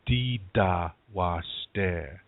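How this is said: The first word is said with d sounds. This is the Dakota dialect form. "In Dakota, you'd say dida washte"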